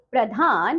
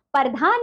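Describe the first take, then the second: First: प्रधान as "pra-dhaan"; correct pronunciation. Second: प्रधान broken as "par-dhaan"; wrong pronunciation. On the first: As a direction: join p and r at the start of प्रधान. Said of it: "और शुद्ध शब्द". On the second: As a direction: split p from r in प्रधान. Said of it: "आपको कुछ अशुद्ध शब्द". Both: Shown as a demonstration.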